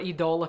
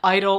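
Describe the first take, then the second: First: The name is said in a fancy, refined way. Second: The name is said in a plain everyday way.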